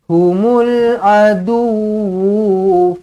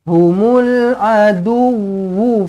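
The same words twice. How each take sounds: First: The final wu vowel is drawn out long. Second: The final wu vowel is kept short. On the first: The speaker calls it wrong. "Ha, salah. Wu tak panjang" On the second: The speaker calls it right. "Wu tak panjang"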